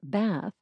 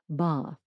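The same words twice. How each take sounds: First: It is said with an American vowel. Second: It is said with an English vowel. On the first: "the typical American pronunciation of bath" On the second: "they say something more like bath"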